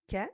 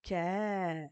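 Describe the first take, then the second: First: "ka" with a short a; crisp, brief "ka" without lengthening; short vowel. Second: "ka" with the a held long and louder; sustained, drawn-out "ka"; long vowel. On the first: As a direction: say "ka" as one short syllable. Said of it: "dès qu'on va lui mettre la fetha". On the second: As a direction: stretch out the a in "ka". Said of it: "Avec les longues voyelles". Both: Shown as a demonstration.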